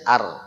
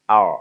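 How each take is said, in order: First: The R is pronounced the plain Indonesian way. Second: The R is pronounced the English way. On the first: The speaker calls it right. "Bukan, R biasa saja" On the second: The speaker calls it wrong. "dia pakai R, R, R Inggris"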